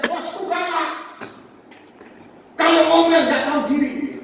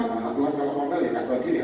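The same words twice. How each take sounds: First: High-pitched mock grumbling, growing louder; acted complaint. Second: Said in the usual way. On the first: Worker griping to preacher about a fierce boss, acted complaint. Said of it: "Dia bilang".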